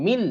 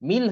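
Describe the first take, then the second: No difference in how they are said.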